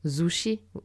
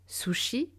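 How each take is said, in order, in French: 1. Le mot commence par un Z sonore. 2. Le mot commence par un S sourd. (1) "et non zushi" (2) "Sushi et non zushi"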